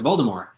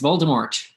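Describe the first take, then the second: First: The final T sound is silent. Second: The final T sound is pronounced. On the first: "no, it's Voldemort" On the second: "yes, it's Voldemort"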